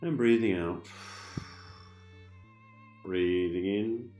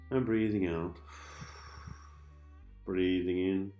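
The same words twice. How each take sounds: The two takes are said the same way.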